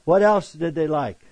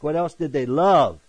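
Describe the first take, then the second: First: Said in the usual way. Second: Love said with the main weight and a falling tune; stress on love. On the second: Shown as a demonstration. Preacher correcting himself, landing hard on love. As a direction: lean on the word love, correcting like. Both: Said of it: "No, not like".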